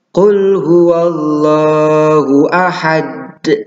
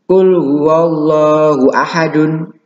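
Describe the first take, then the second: First: The last word ends on a bounced consonant. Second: The last word ends with a full vowel ending. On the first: The speaker calls it right. "Biasanya diwakafkan" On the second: The speaker calls it wrong. "tidak seperti itu"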